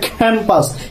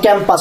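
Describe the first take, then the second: First: The first vowel sounds like a. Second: The first vowel does not sound like a. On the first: The speaker calls it right. "it's a campus. K, it's a a" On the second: The speaker calls it wrong. "not campus"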